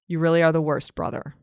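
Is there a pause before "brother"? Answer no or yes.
no. There is no pause before "brother". He is calling him the worst brother.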